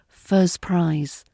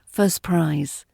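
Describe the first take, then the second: First: The t sound in 'first' is dropped. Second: The t sound in 'first' is dropped.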